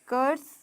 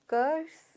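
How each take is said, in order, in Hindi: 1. यह 'ker' ध्वनि से शुरू होता है, एक अक्षर। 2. यह 'ker' ध्वनि से शुरू होता है, एक अक्षर।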